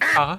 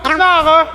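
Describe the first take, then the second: First: The word is said softly in a gentle tone. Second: The word is snapped out in an angry tone. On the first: She is calmly recounting it afterwards. "très gentiment" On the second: She is shouting it in the moment of anger. "elle s'énerve, elle peut dire oh connard"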